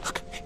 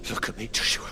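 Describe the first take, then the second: First: Very soft, shaken plea; faint plea. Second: Breath-broken plea, a little stronger; anxious plea. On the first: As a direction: beg him under your breath. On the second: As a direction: urge your brother to respond. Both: Acted. Pleading with unresponsive brother.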